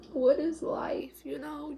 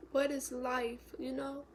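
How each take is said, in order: First: Slow, louder, higher outcry; anguished cry. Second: A hushed, lost question; wondering in grief. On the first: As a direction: throw the question at the sky. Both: Real, not acted. Grieving, asking aloud.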